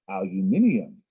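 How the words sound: It is said in a British accent. "If you go by the British pronunciation"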